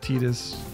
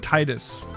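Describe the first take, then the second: First: The first syllable does not sound like 'tide'. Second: The first syllable sounds like 'tide'. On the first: The speaker calls it right. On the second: The speaker calls it wrong.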